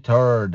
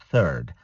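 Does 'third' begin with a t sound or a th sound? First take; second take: t sound; th sound. First: It begins with a plain t sound. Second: It begins with th, tongue between teeth. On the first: The speaker calls it wrong. "Don't say third. It is a bad word" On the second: The speaker calls it right. "Say third. 23rd. Stick your tongue out"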